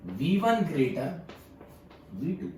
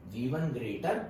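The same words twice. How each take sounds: First: Each word spelled out slowly for notes; slow dictation. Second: Said in the usual way. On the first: Shown as a demonstration. Teacher dictating to students, slow and deliberate. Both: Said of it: "तो मैं क्या लिखूंगा यहाँ".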